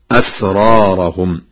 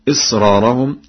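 First: "أسرارهم" opening with a, asraarahum; fatha on the hamza. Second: Said in the usual way. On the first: Shown as a demonstration. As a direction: open "أسرارهم" on an a, not an i. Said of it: "بفتح الهمزة هكذا". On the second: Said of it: "فقد قرأ ورش".

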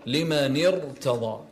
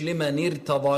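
First: لمن ارتضى slowly, with a full, heavy r; correct heavy Ra. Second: لمن ارتضى with a thin, light r; wrong light Ra. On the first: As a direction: thicken and hold the r in ارتضى. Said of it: "لا، لمن ارتضى". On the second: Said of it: "مش". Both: Shown as a demonstration.

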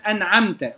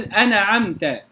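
First: أنعمت with a still noon straight into the ayn; no vowel after the noon of أنعمت; clear izhar. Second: أنعمت with a stray short vowel after the noon; moved noon. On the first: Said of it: "تظهر معنا في سورة الفاتحة". (إظهار نون أنعمت ساكنة) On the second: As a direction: wrongly say أنعمت as ana-amta. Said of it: "لا أقول". (تحريك نون أنعمت خطأً) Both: Shown as a demonstration.

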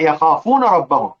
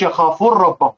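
First: يخافون ربهم with the nun fully sounded; clear unmerged nun. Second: يخافون ربهم with nun merged into a doubled r; wrongly assimilated nun. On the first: Teacher corrects the merged version, nun pronounced clearly. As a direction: say "yakhafuna rabbahum", keeping n and r separate. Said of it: "يبقى يظهر". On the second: Teacher shows what not to say, nun assimilated into r. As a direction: run it together as "yakhafur-rabbahum". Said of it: "ما تقولش يخافون ربهم". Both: Shown as a demonstration.

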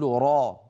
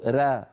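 First: را with full heavy emphasis; emphatic ra. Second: را said thin, without emphasis; a light unemphasized را. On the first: A teacher shows the correct emphatic را. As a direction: press the open را up to the palate. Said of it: "العرب تقول". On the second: A teacher shows the wrong thin را. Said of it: "ولا تقول". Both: Shown as a demonstration.

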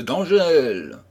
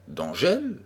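First: D'Angèle hit louder and higher, falling firmly; emphatic D'Angèle with a falling close; insistent. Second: D'Angèle asked with a rising puzzled tune; wondering D'Angèle?, pitch rising at the end; puzzled question. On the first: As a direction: stamp down on D'Angèle. Narrator insists on the name. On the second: Friend questions the name. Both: Acted.

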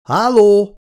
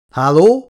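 First: Much higher, louder call that echoes; nervous, high, loud hello; calling out again. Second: Loud rising call into the dark; loud questioning hello, higher and louder. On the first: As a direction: call out harder into the empty hall. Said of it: "A hangja visszhangot vert". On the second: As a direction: call out to see if anyone's there. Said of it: "kiáltott fel a férfi". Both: A narrator's reading.

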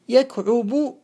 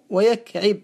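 First: يكعب said slowly as yakʕubu; damma form. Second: ويكعب said slowly as wa-yakʕib; kasra form. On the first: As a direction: put a u after the ʕayn in يكعب. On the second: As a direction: put an i after the ʕayn in ويكعب. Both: Shown as a demonstration. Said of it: "مشهور بالضم والكسر".

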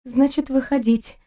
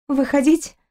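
First: Numb lips resigned mutter. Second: Questioning rise through numb lips; numb lips mutter. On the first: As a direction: give in, lips barely moving. (покорно бормочет непослушными губами) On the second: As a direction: mumble it as if lips won't move. (бормочет онемевшими губами, с вопросом) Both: A narrator's reading. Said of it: "непослушными губами пробормотала".

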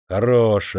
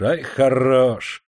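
First: Short biting «Хорош»; venomous sneer. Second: Very slow, stretched «ай, хорош»; drawn-out venomous sneer. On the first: Master sneers at the ragged worker, venomous. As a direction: spit out «Хорош» with contempt. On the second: Master mocks the worker's looks, slow sneer. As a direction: drag out «ай, хорош» to mock him. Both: A narrator's reading. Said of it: "с ядовитой насмешкой".

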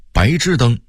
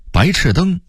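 First: 白炽灯 as báizhìdēng; Beijing reading. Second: Said in the usual way. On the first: Shown as a demonstration. Narrator contrasting word lists, Beijing reading. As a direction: say 炽 in 白炽灯 as zhì, not chì. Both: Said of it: "北京话读白炽灯".

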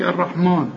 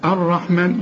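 First: الرحمن ending in a drawn man sound; mock the mistaken man in الرحمن; wrong man ending. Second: الرحمن with the ra said cleanly, no ghunna; clear ra, no nasal. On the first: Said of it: "مان، مان إيه؟". (تقليد خاطئ لنطق الرحمن بمد مان) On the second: Shown as a demonstration. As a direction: keep the ra in الرحمن crisp. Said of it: "بنحققها". (الرحمن براء محققة بلا غنة)

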